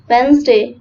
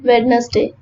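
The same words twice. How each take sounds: First: The letter D is silent. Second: The letter D is pronounced. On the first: The speaker calls it right. "the pronunciation of this word is Wednesday" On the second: The speaker calls it wrong. "not Wednesday"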